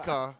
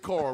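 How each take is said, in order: First: The R at the end is dropped. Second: The R at the end is pronounced. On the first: This is how locals say it. "We say car. ... we don't pronounce R's" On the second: This is how outsiders say it. "We don't say car"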